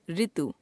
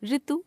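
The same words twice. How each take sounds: First: Said in the usual way. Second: ऋतु begun as an ordinary r plus i, "ritu"; wrong pronunciation. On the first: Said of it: "शुद्ध". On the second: Shown as a demonstration. Teacher showing a ri error, ऋतु mispronounced as रितु. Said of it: "अशुद्ध".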